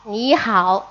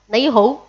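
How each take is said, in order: First: It is said with Beijing Mandarin pronunciation. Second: It is said with Cantonese pronunciation. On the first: "En Pekín, en pequinés, pues se pronuncia ni hao" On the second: "Y en cantonés"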